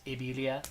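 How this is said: It is said with a Spanish accent. "in Spanish it's"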